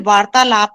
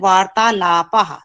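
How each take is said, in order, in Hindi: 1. शब्द के अंत में कोई फुसफुसाती ध्वनि नहीं है। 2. शब्द के अंत में एक छोटी फुसफुसाती 'h' ध्वनि है। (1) "अगर हम इसको ऐसे पढ़ते हैं तो ये वार्तालाप है हिंदी में" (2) "दो बिंदु आ गए तो हम इसको पढ़ते हैं वार्तालापः"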